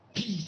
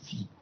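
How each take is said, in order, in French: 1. Il commence par un son p fort et dur. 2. Il commence par un son f doux et coulant. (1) "Pi, c'est p. Vous voyez, c'est plus fort" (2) "Quand on dit phi, c'est que ça coule"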